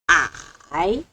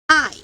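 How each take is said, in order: First: It is said with the third tone. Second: It is said with the fourth tone. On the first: "Third tone" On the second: "Fourth tone"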